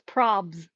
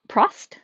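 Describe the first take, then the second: First: The t is dropped, ending in bs. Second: The b is dropped, ending in st. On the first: "voiceover leaves the T silent" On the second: "Maybe the B is silent"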